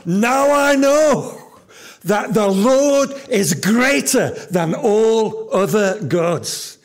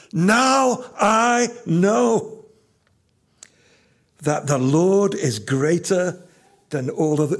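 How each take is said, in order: First: High, loud and slow cry of joy; preacher voicing Jethro's joyful shout; joyful exclamation. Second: Now drawn out high and slow; slow, weighty restatement; slow emphatic repeat. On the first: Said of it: "nearly explodes with joy and exclaims". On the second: Shown as a demonstration. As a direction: linger on "Now I know". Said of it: "That's where Jethro gets to".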